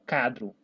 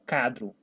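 First: The u sound is left out. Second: The same.

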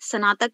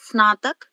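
First: A full vowel follows the first s sound. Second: The s joins directly onto the n sound. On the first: The speaker calls it wrong. "आपने स्नातक बोला" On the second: The speaker calls it right. "स पूरा नहीं है, स आधा है"

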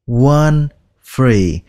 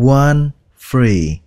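No difference in how they are said.

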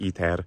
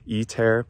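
First: It has Latin-style vowels, T and R. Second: It has close vowels with English T and R. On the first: "pronouncing it like the Latin word it's meant to imitate" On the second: "using an English T and an English R"

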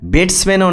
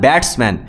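First: The word is said in a mocking imitated pronunciation. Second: The word is said with careful, standard pronunciation. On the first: The speaker calls it wrong. "ব্যাটসম্যানও না" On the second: The speaker calls it right. "উচ্চারণটা তো ঠিকঠাকভাবে কর ভাই"

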